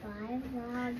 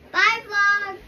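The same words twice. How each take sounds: First: It is said quietly. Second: It is said loudly.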